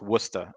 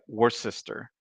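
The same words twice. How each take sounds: First: The name is said in a shortened form. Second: The name is said as spelled, every letter sounded. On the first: The speaker calls it right. "but it it's pronounced Worcester" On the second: The speaker calls it wrong. "like it should be like Worcester"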